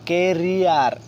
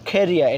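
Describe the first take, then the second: First: It starts with plain k and ends with r. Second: It starts with aspirated k; final r is silent. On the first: The speaker calls it wrong. "আমরা আগে পড়তাম কেরিয়া, কেরিয়া র পড়তাম, ক এখানে ক বলতাম, শেষে র বলতাম" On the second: The speaker calls it right. "এখানে খ উচ্চারণ করবো। ... আরটা সাইলেন্ট থাকবে।"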